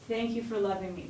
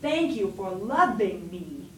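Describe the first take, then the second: First: It is said simply, relaxed and connected. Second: It is said with exaggerated, overdone effort. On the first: The speaker calls it right. "That's how I'd say it" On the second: The speaker calls it wrong. "I wouldn't be like"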